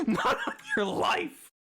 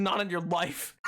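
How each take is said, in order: First: Squeaky high disbelief; high laughing mock outrage. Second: Said in the usual way. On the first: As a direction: shriek it out in disbelief. Repeats it high through laughter.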